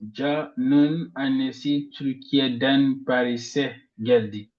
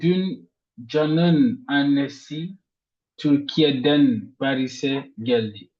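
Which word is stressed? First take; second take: Paris'e; Türkiye'den. First: The stress falls on the word Paris'e. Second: The stress falls on the word Türkiye'den. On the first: She came to Paris, not somewhere else. "on met ici l'intonation sur Paris" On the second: She came from Turkey, not from elsewhere. "on met l'intonation sur Türkiye'den"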